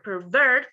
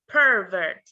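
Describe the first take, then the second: First: The stress is on the second syllable. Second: The stress is on the first syllable. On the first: It is used as a verb. "we like a verb, we um, stress the final syllable" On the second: It is used as a noun. "we stress the first syllable"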